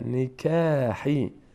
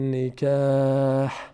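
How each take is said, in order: First: The word ends with a short vowel. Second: The word ends on a bare consonant. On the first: The reading continues into the next word. "در هنگام وصل" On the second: The reading stops at this word. "اگر ایستادیم"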